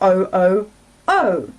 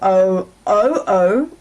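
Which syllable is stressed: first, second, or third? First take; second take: third; second. First: The stress is on the third syllable. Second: The stress is on the second syllable. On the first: "or third can be stressed"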